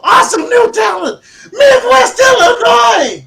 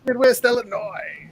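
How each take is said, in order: First: High, very loud announcer scream; all-caps shouting. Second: Higher, slow imitation of the shout; drawn-out, toned-down announcer call; half-hearted echo. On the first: Shown as a demonstration. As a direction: scream it out like capital letters. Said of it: "when it's in caps". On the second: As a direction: echo the holler without the volume. Repeats the shout less forcefully.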